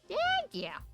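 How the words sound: It is said in a small childlike voice.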